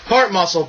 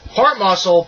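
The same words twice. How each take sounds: First: It is read with flatter, lower energy. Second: It is read with lively, high energy.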